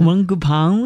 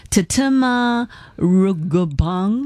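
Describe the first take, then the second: First: Rungupang echoed back with a rising check; host echoes the guest's Rungupang, rising at the end; repeating the name. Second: Slow, careful Tatema Rungupang, each syllable drawn out; host slowly sounds out Tatema Rungupang for listeners; careful name spelling-out. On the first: Host repeats the guest's pronunciation, rising like a question. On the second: Host introduces guest's Thai name, saying Tatema Rungupang slowly and carefully. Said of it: "佢個名呢，就係". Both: Shown as a demonstration.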